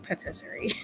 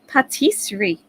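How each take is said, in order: First: It is said to rhyme with rotisserie. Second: It is said without rhyming with rotisserie. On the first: The speaker calls it wrong. "it looks like patisserie, like rotisserie" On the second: The speaker calls it right. "Is that correct? Am I doing it okay?"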